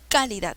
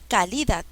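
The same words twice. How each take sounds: First: The stress is on the first syllable. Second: The stress is on the second syllable. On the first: "No, no es calidad" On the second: "No, tampoco"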